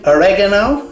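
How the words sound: It is said with an American pronunciation. "as Americans say"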